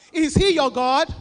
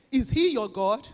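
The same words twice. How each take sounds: First: Pushed much louder, demanding an answer; louder challenge. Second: Said in the usual way. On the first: Shown as a demonstration. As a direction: call it out louder to the congregation.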